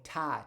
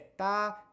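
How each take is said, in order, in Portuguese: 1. O t tem uma forte explosão de ar. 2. O t é suave, sem explosão de ar. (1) "no inglês eles falam ta" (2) "Então eu falo é"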